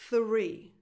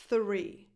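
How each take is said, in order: First: The word begins with a voiceless th sound. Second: The word begins with a voiceless th sound.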